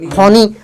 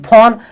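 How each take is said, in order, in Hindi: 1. यह शब्द एक अतिरिक्त ee ध्वनि के साथ खत्म होता है। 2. यह शब्द n ध्वनि पर खत्म होता है। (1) "अगर ई अगर पढ़ेंगे तो फोनी" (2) "ई मिटा दिया"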